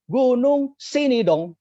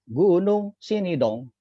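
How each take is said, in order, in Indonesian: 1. Diucapkan jauh lebih keras dari sebelumnya. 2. Diucapkan dengan volume pelan, normal.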